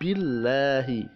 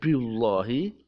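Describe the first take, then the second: First: The l sound is light and thin. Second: The l sound is heavy and dark. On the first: The speaker calls it right. "membacanya dengan tipis" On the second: The speaker calls it wrong. "tidak billahi"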